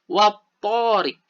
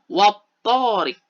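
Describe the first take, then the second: No difference in how they are said.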